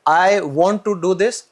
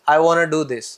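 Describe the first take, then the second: First: 'Want to' is said as two full words. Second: 'Want to' is run together and shortened.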